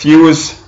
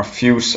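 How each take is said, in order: First: Fuse drawn out, higher and louder; first pronunciation attempt. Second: Fuse said shorter, at usual pitch; alternative pronunciation. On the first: Reviewer naming the juice for viewers, tentative pronunciation. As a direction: stretch out Fuse, pitched up. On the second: Reviewer unsure of the juice's name, alternative pronunciation. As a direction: offer Fuse as the other reading. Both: Shown as a demonstration. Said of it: "I don't know how to pronounce it".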